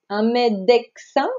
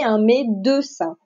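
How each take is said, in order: First: The first syllable ends with a hard k sound. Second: The first syllable is a plain open e sound. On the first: The speaker calls it wrong. "on ne va pas dire" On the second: The speaker calls it right. "Le E chante E"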